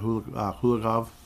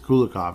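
First: The name is said with an H sound. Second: The name is said without an H sound. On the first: The speaker calls it wrong. "I keep saying it wrong. There's no H. Why am I saying H?" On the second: The speaker calls it right. "It is Kulikov in this case"

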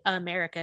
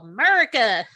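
First: The word is said at a calm volume. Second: The word is shouted loudly. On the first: "I say America because I'm educated" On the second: "just yell"

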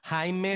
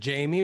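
First: The name is said with a Spanish accent. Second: The name is said with an English accent.

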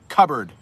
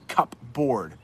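First: The word is said in its reduced form. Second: The word is said fully, as spelled. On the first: The speaker calls it right. "Do you see how I said that?" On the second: The speaker calls it wrong. "It's not cupboard. Even though that's the way it looks"

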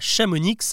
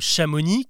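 First: The final consonant is sounded. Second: The final consonant is silent. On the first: The speaker calls it wrong. "qui ne se prononce pas Chamonix" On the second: The speaker calls it right. "ils ne se prononcent pas"

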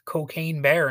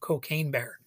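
First: One word carries a little extra emphasis. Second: The words carry no extra emphasis. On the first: "it's more fun when you say it like Cocaine Bear" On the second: "instead of Cocaine Bear"

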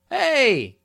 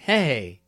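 First: It sounds like a warm, friendly greeting. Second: It sounds shy and flirty, like a crush.

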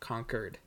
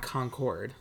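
First: The second syllable sounds like 'kerd', as in conquered. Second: The second syllable sounds like 'cord', fully pronounced. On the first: "I feel like Concord is Q-U-E-R-E-D" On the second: "like Concord grapes"

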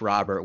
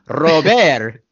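First: The name has an Americanized pronunciation. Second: The name has its native-language pronunciation. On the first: "that's the Americanized name" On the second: "his native tongue"

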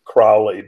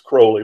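First: The name does not rhyme with holy. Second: The name rhymes with holy. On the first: The speaker calls it wrong. "People sometimes pronounce it Crowley" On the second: The speaker calls it right. "but it's Crowley, rhymes with holy"

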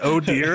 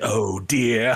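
First: It is said in a plain reading voice. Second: It is said imitating Beesbury's voice.

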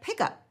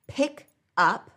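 First: The two words run smoothly together. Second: The two words are said separately.

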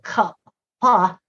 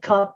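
First: The word is broken up with its sounds exaggerated. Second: The word is said as one normal syllable. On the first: "where she would say it enunciation" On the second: "regular like cup"

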